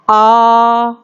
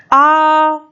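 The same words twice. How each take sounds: First: आ held for two beats, a clear long vowel; आ with two matras, steady and even. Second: आ stretched very long, pitched higher; आ as a pluta vowel, long and sustained; drawn-out pluta vowel. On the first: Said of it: "ये है दीर्घ आकार". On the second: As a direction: hold आ for three beats, pulling out its end. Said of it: "बहुत देर तक यदि हम बोलेंगे". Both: Shown as a demonstration.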